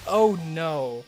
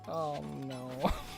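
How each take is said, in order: First: It is said in a non-Australian accent. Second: It is said in an Australian accent.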